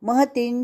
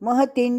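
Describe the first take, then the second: Both takes have the same delivery.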